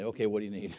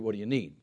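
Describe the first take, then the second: First: It is asked hesitantly, with reluctance. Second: It is asked plainly and readily.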